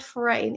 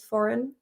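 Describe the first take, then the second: First: The word is pronounced closely following its spelling. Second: The word is pronounced in the usual native way. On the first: The speaker calls it wrong. "It's actually not foreign" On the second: The speaker calls it right. "it is foreign"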